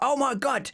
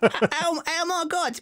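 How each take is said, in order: First: It is said in the speaker's own voice. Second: It is said in an imitation of his wife's voice.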